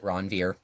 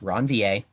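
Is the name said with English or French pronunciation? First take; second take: English; French. First: The name is pronounced the English way. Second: The name is pronounced the French way. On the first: It is what people commonly say. The speaker calls it wrong. "everybody pronounces it Ranvier" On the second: It is the proper form but can sound snobby. The speaker calls it right. "how you say that name in French"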